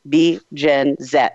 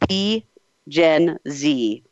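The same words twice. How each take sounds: First: Z is said the European way, as zed. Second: Z is said the American way, as zee.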